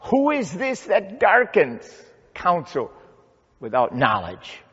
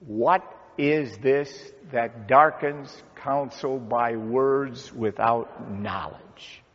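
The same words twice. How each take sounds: First: High, emphatic start falling to a firm close; forceful challenge. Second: Slow, evenly spaced group reading; measured recitation. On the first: Preacher repeats God's question to challenge Job, forceful challenge. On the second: Pastor leads congregation in saying God's words to Job, measured recitation. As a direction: read it slowly for others to join in. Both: Acted.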